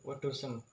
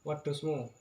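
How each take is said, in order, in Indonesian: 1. Kata ini berakhiran bunyi 'em'. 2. Kata ini berakhiran bunyi 'mu'. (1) "diganti menjadi wedusem" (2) "kata wedusmu"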